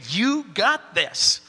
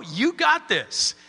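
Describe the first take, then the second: First: "You got this." drawn out slowly, leaning on You; slow reassurance to the congregation; slow encouraging. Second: "You got this." said slowly, stress on got; slow pep talk to a doubting listener; slow encouraging. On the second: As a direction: tell them "You got this." slowly and firmly. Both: Shown as a demonstration. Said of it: "look at you and just say".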